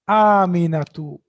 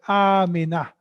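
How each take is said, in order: First: The name ends with an added -tu syllable. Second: The name ends in a plain vowel. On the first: The grammatical case ending is shown. "I'm pronouncing the last sign also" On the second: The word is said in its pausal form. "You'll say Amina"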